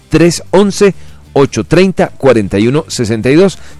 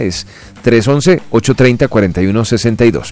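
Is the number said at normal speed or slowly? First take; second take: slowly; normal speed. First: The number is said more slowly. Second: The number is said at normal speed.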